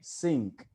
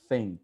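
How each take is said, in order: First: The word begins with an s sound. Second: The word begins with a th sound. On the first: The speaker calls it wrong. "they say sink with the S" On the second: The speaker calls it right. "But that's not the sound"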